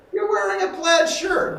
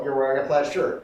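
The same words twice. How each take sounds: First: Much higher and louder, full of reaction; charged repetition. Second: Said in the usual way. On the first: Shown as a demonstration. Acting teacher showing the right repetition, high and loud. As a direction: throw it back with real feeling, way up high. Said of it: "You gotta go". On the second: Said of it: "you can't go".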